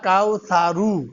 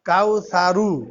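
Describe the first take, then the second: No difference in how they are said.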